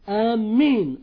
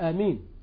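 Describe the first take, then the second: First: The first vowel is long and the m is doubled. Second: The first vowel is short and the m is single. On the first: "بالمد والتشديد" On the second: "بالقصر والتخفيف"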